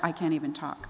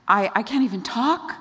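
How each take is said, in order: First: Said in the usual way. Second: Stammered, higher mock protest; freaking out. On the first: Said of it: "He tried that". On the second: Moses makes his excuse to God, mildly panicked. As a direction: act out a flustered excuse, lifting at the end. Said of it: "he freaks out".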